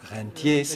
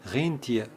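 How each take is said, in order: First: The word is pronounced without German sounds. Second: The word is pronounced with German sounds. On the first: It means a person living on investment returns. The speaker calls it right. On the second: It means a reindeer. The speaker calls it wrong.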